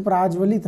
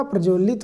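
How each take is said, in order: First: प्राज्वलित with a long open "aa" after the "pr": praajvalit; the wrong form प्राज्वलित, long "aa" after "pr"; wrong spelling said aloud. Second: प्रज्वलित with a short neutral "a" after "pr": prajvalit; the right form प्रज्वलित, short first vowel; correct spelling said aloud. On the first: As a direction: say प्राज्वलित as praaj-valit, the first vowel stretched long. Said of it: "नहीं होता". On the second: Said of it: "होता है". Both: Shown as a demonstration.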